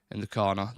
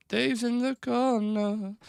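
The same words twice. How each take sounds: First: Said in the usual way. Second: High, slow and drawn-out, teasing; silly sing-song voice. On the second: Pretend. Streamer announcing Dave's on-screen spot to viewers, in a high slow silly voice. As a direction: stretch it out like a playful announcement. Playful repeat placing Big Dave.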